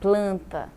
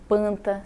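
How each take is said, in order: First: The L sound after the P is pronounced. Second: The L sound after the P is dropped.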